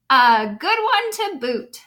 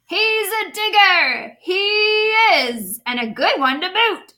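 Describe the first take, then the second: First: Louder, slow pirate chorus echo; lightly voiced crew agreeing. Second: Loud, higher delighted pirate shout; hearty pirate announcement; pirate yelling to crew. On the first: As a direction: echo the captain like a gruff crew. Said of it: "the others agreed". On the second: Acted. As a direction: call it back to the crew with glee. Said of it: "then yelled back to his crew".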